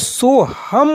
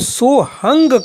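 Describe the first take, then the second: First: The word ends with an 'm' sound. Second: The word ends with an 'ng' sound. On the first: This is how grammar scholars say it. "व्याकरण के विद्वान बुद्धिजीवी वर्गों में इसका जो उच्चारण होता है वो सोहम होता है" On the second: This is how the old spiritual traditions say it. "इन प्राचीन परंपरावादी गुरुओं के माध्यम से जो इसका उच्चारण करते हैं वो सोहंग करते हैं"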